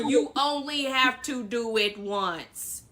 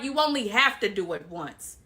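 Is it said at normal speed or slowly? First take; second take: slowly; normal. First: It is said slowly. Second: It is said at normal speed.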